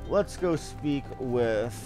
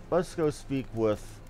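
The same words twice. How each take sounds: The two takes are said the same way.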